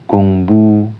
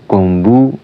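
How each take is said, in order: No difference in how they are said.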